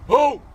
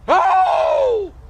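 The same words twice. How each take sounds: First: A short, low-pitched bark. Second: A long, high-pitched yelp. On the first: "a low-pitched bark" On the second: "a long high-pitched yelp"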